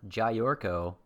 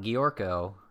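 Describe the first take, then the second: First: The name begins with a 'jay' sound. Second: The name begins with a 'gee' sound. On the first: "and it's not Jayorko" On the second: "So it's not Giorko"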